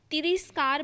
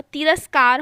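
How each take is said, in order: First: "तिरस्कार" as ti-ris-kaar; wrong i vowel. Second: "तिरस्कार" as ti-ras-kaar; correct a vowel. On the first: Teacher quoting the error to students, mispronounced. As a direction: put an i after r in "तिरस्कार". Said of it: "भी नहीं होता". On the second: Teacher correcting the word, loud and clear. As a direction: say "तिरस्कार" with a after r, firmly. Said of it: "तिरस्कार होता है". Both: Shown as a demonstration.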